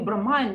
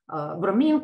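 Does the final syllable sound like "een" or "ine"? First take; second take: ine; een. First: The final syllable ends with an eye sound. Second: The final syllable ends with an ee sound. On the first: The speaker calls it wrong. "не бромайн" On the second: The speaker calls it right.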